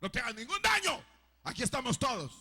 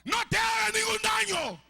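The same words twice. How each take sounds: First: A bit raised, less than a full yell; repeated call from Paul to the jailer; milder retold shout. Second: Shouted high and loud in alarm; urgent cry from Paul to the jailer; Paul's loud cry. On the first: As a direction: call out to reassure him. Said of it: "Le gritó". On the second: Retold or imitated. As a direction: yell it to stop him from harming himself. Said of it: "Pablo le grita y le dice a gran voz".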